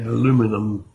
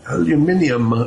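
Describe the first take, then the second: First: It is said the American way. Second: It is said the speaker's own, non-American way.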